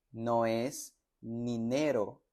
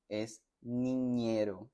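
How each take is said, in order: First: "ninero" slow, with a plain n; wrong plain n. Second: "niñero" slow, with a clear ny; correct ñ. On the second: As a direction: stretch out "niñero" with ñ. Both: Shown as a demonstration. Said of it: "Noten la diferencia".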